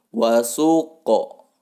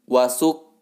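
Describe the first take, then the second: First: The final q is released with a bounce. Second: The word ends in a clipped k sound. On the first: The speaker calls it right. "tetapi wasuqo ... mesti dibaca memantul" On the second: The speaker calls it wrong. "bukan wasuk"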